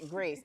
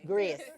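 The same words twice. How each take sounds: First: The name is said in a plain American accent. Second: The name is said Jamaican-style, with a y-glide. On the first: "Jamaicans don't just say Grace" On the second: "it's like with a Y, G R A Y"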